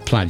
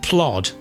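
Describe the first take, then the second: First: The vowel is a short 'a', like lad. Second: The vowel is an open 'o', like plod. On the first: "So let's say plaid, shall we?" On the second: "Up north, where I'm from, my old granny would have said plod"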